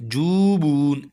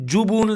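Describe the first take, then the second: First: The first vowel is stretched long. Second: The first vowel is short. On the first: The speaker calls it right. "जूबून ऐसे पढ़ेंगे, दोनों को खींच कर पढ़ेंगे" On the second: The speaker calls it wrong. "जुबून नहीं करेंगे"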